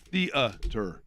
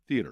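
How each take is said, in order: First: A separate vowel follows the E sound. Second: Only the E sound, no separate vowel. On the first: "or is it E A?" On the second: "just theater"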